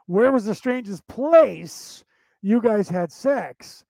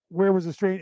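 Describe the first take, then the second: First: Slow, deliberate question with "place" drawn out and punched; intended meaning. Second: Said in the usual way. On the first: Shown as a demonstration. Explaining what the host meant, slow emphatic stress on "place". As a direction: spell out the question, leaning hard on "place". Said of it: "They meant". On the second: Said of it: "she took it as".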